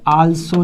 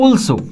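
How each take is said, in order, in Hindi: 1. यह खुले 'aa' स्वर से शुरू होता है। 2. यह गोल 'aw' स्वर से शुरू होता है। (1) "आल्सो नहीं है" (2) "ये लिखा है ऑल्सो"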